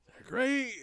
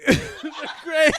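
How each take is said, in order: First: Said in the usual way. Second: High, loud laughing repeat. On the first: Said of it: "I realized what I said". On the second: Real, not acted. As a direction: crack up while repeating it.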